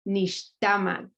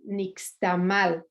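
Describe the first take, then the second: First: The stress is on the second-to-last syllable. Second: The stress is on the last syllable. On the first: The speaker calls it right. "the correct pronunciation is nixtamal" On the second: The speaker calls it wrong. "because there's an accented last vowel, which actually is incorrect"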